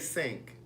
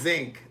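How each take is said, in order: First: The word begins with a hissing S sound. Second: The word begins with a buzzing Z sound. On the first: This is how people outside Baltimore say it. "They don't say sink" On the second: This is how people in Baltimore say it. "they say zinc"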